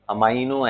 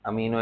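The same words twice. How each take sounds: First: अमाइनो with "eye" in the middle; preferred pronunciation. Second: अमीनो with a long "ee" in the middle; alternative pronunciation. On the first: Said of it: "I prefer saying it". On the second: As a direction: say अमीनो as a-MEE-no. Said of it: "दोनों ही बोलते हैं लोग". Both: Shown as a demonstration.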